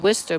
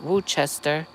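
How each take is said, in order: First: It is said without a 'ch' sound. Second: It is said with a 'ch' sound. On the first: This is the town's proper name. The speaker calls it right. "it's called Worcester" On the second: Some people say it this way. The speaker calls it wrong. "some people call it Worcester. It doesn't have an H"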